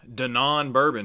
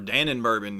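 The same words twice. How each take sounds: First: The first word is not said like the yogurt brand. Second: The first word is said like the yogurt brand.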